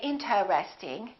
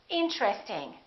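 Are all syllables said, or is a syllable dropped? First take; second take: all syllables; syllable dropped. First: Every syllable is pronounced in full. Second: A vowel is dropped, joining T and R. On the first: The speaker calls it wrong. "don't say interesting" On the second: The speaker calls it right. "This T R are connected"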